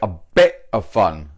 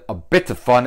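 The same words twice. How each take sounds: First: The T in 'bit' is almost dropped. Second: The T in 'bit' is clearly pronounced. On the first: "So the T is almost kind of like eliminated" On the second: "Instead of"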